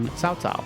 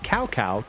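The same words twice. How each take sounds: First: The name is said closer to Chinese sounds. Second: The name is read as its English letters suggest. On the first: This is the newer, more accurate version. The speaker calls it right. "they tried to make it more accurate to Chinese" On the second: This is the older, spelling-based version. The speaker calls it wrong. "his name is spelled C A O C A O"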